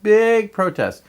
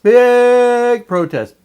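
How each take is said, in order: First: Said in the usual way. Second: Big protest stretched slow, loud and high on Big; emphatic repeat. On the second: Real, not acted. Telling about the Beham protest, loud stretched emphasis. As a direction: lean hard on Big.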